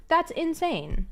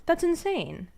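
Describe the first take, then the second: First: Slower, drawn out. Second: Said in the usual way. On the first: Real, not acted. Streamer repeats her disbelief to chat, slowly. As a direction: stretch out insane slowly.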